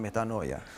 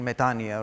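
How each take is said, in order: First: It is said with an English pronunciation. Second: It is said with a Greek pronunciation. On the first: "rather than" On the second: "I will be using the Greek pronunciation"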